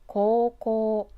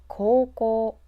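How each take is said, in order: Both takes have the same delivery.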